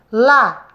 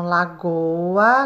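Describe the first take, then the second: First: "La-go-a" in three separate beats, louder; syllable by syllable. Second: Said in the usual way. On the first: Shown as a demonstration. Teacher to pupils, showing the split word, La-go-a by syllable. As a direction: clap out "La-go-a" one syllable at a time. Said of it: "depois separa a sílaba".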